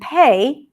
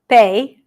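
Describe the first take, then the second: First: The P has a strong puff of air. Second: The P has no puff of air. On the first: "an aspirated P" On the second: "a regular P"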